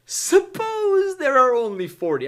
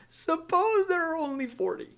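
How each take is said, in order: First: Abraham. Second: Very high, soft timid voice; Abraham. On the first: Abraham asking God to spare the city for forty, high-pitched appeal. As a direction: stretch out a pleading "suppose". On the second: Abraham nervously bargaining with God, meek high-pitched request. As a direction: ask gingerly, high and small. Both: Acted. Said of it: "I can only imagine how he's asking this question".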